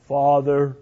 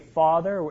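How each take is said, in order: First: It is said in a grave Darth Vader-like voice. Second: It is said in a plain, normal voice.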